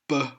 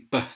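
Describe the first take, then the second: First: The sound is drawn out with a vowel. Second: The sound is short and sharp. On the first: The speaker calls it wrong. "a lot of people tend to say B" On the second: The speaker calls it right. "It's a lot shorter, sharper sound"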